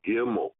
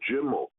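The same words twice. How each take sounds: First: The word begins with a hard G sound. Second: The word begins with a soft J sound. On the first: "the hard sound is a G" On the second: "The gimel with the soft sound is a J"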